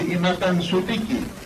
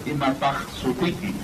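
First: The first word ends with an n sound. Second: The first word ends with an h sound. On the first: "Como está escrita, dice imatan sutiki" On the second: "Como también puede ser imatah sutiki"

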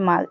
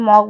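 First: The vowel is an open 'a' sound. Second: The vowel is a rounded 'o' sound. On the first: This is how the word is said in English. "ইংরেজি উচ্চারণ হবে মাগ" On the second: This is how the word is said in Bengali. "Bangla আমরা মগ বলি"

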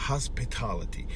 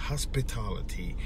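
No difference in how they are said.

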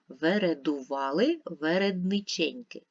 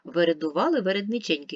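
First: It is read slowly and calmly. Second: It is read at the fastest pace. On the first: "Давайте ще раз спокійно і повільно" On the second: "Ще швидше"

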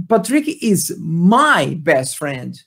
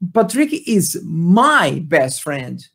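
First: The word 'my' carries strong emphasis. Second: The same.

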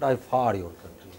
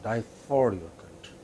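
The two takes are said the same way.

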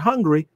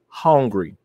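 First: The first vowel is short and ordinary. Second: The first vowel is stretched into a drawn 'haun'. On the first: Ordinary hunger. The speaker calls it wrong. "Not hungry" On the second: An intense, eager craving. The speaker calls it right. "H-A-U-N, hungry"

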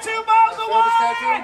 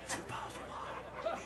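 First: It is screamed very loudly. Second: It is whispered very quietly.

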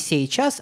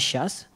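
First: The word is said in full, every syllable clear. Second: The word is said shortened, with sounds dropped. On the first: "мы говорим не «сейчас»" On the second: "а «сейчас»"

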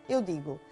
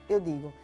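The two takes are said the same way.

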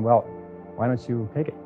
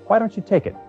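First: The question is asked hesitantly and tentatively. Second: The question is asked boldly and confidently.

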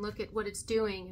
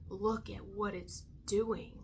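First: It sounds dismayed and complaining. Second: It sounds wondering and positive. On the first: The situation is seen as harmful. The speaker calls it wrong. "we're putting such negative energy on it" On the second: The situation is seen as an opportunity. The speaker calls it right. "Two different ways"

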